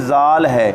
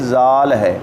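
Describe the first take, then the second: No difference in how they are said.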